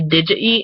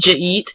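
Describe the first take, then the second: First: The words are said fully as separate words. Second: The words are squeezed into one short syllable. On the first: "I tend to say did you eat" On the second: "which means did you eat?"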